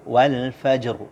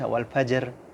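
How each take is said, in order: First: The final r is pronounced thick and heavy. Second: The final r is pronounced thin and light. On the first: The speaker calls it right. "Baca wal fajr" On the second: The speaker calls it wrong. "Jangan dibaca wal fajr. Fajr, ah, itu tipis"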